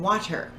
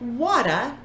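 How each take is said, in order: First: The word ends in an 'er' sound. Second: The word ends in a short 'a' vowel.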